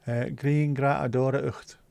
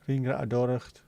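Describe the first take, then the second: First: "Green Gra Adora Ucht" read slowly, syllable by syllable; phonetic reading. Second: "Green Gra Adora Ucht" run together at normal speed; quicker run-through. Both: Shown as a demonstration.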